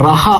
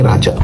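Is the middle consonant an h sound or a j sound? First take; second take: h sound; j sound. First: The middle consonant is an h sound. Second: The middle consonant is a j sound. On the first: This is how people in Spain say the name. "ஜேக்கு அங்க உச்சரிப்பு இல்லையா... ரஹா என்று கூப்பிட்டார்கள்" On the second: This is the name's original pronunciation. "என்னுடைய பேர் ராஜா"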